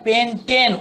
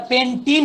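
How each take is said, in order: First: পেন্টেন slow and higher, ending like the letter N. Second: পেন্টিন with a long "ee" in the last syllable, pitched up; contrasting "een" ending. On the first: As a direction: draw out পেন্টেন to show its "-ten" ending. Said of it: "উচ্চারণটা এন এর মতো". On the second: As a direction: end পেন্টিন on "-teen" instead of "-ten". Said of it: "এটা যদি আবার পেন্টিন হতো". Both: Shown as a demonstration.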